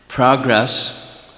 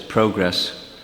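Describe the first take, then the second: First: It is said in a plain American accent. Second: It is said in a Canadian accent.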